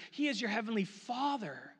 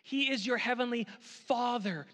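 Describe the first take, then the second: No difference in how they are said.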